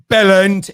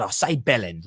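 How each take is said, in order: First: Loud, punchy Cockney Bellend; louder mock Cockney echo of the word; copied Cockney. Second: Low, soft Cockney bellend; a hint of Cockney teaching a word; Cockney demo. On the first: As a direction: bark Bellend like a London local. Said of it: "He just sounded so Cockney". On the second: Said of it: "like that".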